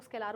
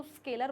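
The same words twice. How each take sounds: First: स्केलर with a long "aa", "skay-LAAR"; स्केलर ending in an open, long "-laar"; long-vowel pronunciation. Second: स्केलर with a short second vowel, "SKAY-ler"; स्केलर ending in a quick "-ler"; short-vowel pronunciation. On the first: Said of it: "कुछ लोग स्केलर बोलते हैं". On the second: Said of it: "कुछ लोग इसको स्केलर बोलते हैं". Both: Shown as a demonstration.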